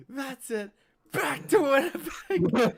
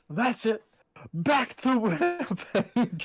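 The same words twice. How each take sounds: First: Very high, loud, slow with laughter; laughing meme quote. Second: Higher, slow put-on voice; meme quote. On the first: Retold or imitated. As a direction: squeal it through a laugh. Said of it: "I showed that to Darcel". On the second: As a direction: drag out the meme line. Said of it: "I still just love".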